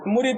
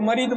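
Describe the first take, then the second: First: The first vowel is a short u sound. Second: The first vowel is a short a sound. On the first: Someone who pledges himself to a spiritual guide. The speaker calls it right. "मुरीद को मरीद बोलते हैं" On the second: Someone utterly ruined. The speaker calls it wrong. "ये जेर को जबर बहुत कर देते हैं"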